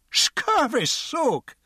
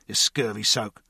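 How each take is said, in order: First: Very high, very slow indignant echo; outraged drunk. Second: Said in the usual way. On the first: A narrator's reading. Drunk repeats the guard's insult, slow and outraged. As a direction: stretch out the insult in disbelief. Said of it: "the drunk said".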